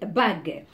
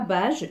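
First: The g is hard, like the g in go. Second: The g is soft, like the s in measure. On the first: The speaker calls it right. "c'est une bague" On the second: The speaker calls it wrong. "ce n'est pas bage"

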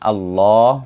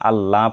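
First: The 'l' is pronounced heavy and thick. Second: The 'l' is pronounced light and thin. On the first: The speaker calls it right. "আল্লাহ শব্দটি মোটা করে পড়তে হয়েছে। ... আল্লাহ পড়েছি।" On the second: The speaker calls it wrong. "আল্লাহ পড়িনি"

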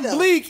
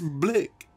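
First: The vowel is a long 'ee' sound. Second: The vowel is a short 'i' sound. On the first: The speaker calls it wrong. "The word is not bleak" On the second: The speaker calls it right. "it's blick"

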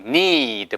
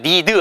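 First: The vowel is long and drawn out. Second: The vowel is short and clipped. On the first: The speaker calls it right. "여기도 ee잖아요" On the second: The speaker calls it wrong. "이것도 need 하지 마시고"

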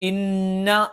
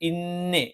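First: The vowel after the n is an open 'a'. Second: The vowel after the n is an 'e'. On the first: The speaker calls it right. "ഇന്ന എന്ന് പറയുന്നതിന് പകരം" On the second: The speaker calls it wrong. "ഇന്നേ എന്ന് പറയാനുള്ള ഒരു സാധ്യതയുണ്ട്"

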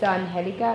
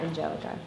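First: The g is said like an h sound. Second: The g is said like a j sound. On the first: The speaker calls it right. "it's Angelica" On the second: The speaker calls it wrong. "not Angelica"

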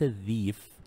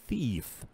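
First: The first sound is a voiced th. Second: The first sound is a voiceless th. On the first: The speaker calls it wrong. "ليس ذيف" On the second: The speaker calls it right. "نو اتس ثيف ثا ساوند"

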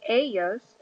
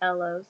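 First: The double L sounds like an English Y. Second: The double L sounds like an English L. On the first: The speaker calls it right. "the double L's make a Y sound" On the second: The speaker calls it wrong. "It's not ellos"

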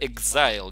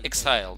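First: The consonant is hard, like a G. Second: The consonant is said more softly. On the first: The speaker calls it wrong. "как будто буква «Г» там" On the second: The speaker calls it right. "Более мягко произносить его ник"

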